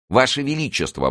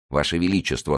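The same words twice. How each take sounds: First: High, raised cry of alarm. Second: Said in the usual way. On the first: A narrator's reading. Mazarin protests to the queen, high alarmed cry. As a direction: cry out to stop her. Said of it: "воскликнул Мазарини". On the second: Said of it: "снова воскликнул Мазарини".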